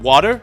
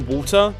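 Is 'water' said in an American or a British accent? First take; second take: American; British. First: The word is said in an American accent. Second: The word is said in a British accent. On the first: "this is me saying it the American way" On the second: "I can't naturally change to the Ameri more American pronunciation, I say water"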